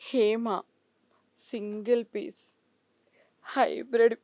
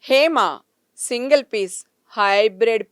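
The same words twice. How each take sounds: First: It is said in a shy, bashful tone. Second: It is said in a plain, neutral tone. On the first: "సిగ్గుపడుతూ" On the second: "original జెప్పేసి"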